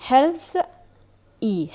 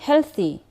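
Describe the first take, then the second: First: "Health ای" as two parts, health... ee; word taken apart, "Health" and "ای"; split into syllables. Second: Said in the usual way. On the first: Shown as a demonstration. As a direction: pause after "Health", then add "ای" alone.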